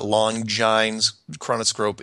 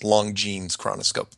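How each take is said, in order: First: The name does not sound like 'long jeans'. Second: The name sounds like 'long jeans'. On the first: The speaker calls it wrong. "It is not" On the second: The speaker calls it right. "It is pronounced long jeans, like like like you know long denim jeans"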